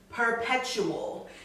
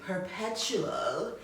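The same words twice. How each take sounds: First: It is said in a plain, normal voice. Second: It is said in a sultry, breathy voice.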